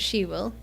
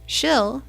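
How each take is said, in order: First: It is said as two full, separate words. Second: It is squeezed into one reduced syllable.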